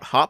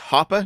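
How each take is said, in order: First: The name ends sharply on the p sound. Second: The name ends with a vowel after the p. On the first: The speaker calls it wrong. "not Hop. I always say it Hop" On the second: The speaker calls it right. "the way to pronounce the name is Hoppe"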